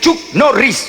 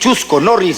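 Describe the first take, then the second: First: The first name has one syllable, ending in a consonant. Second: The first name has two syllables, ending in a vowel. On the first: The speaker calls it right. "se dice" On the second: The speaker calls it wrong. "No se dice"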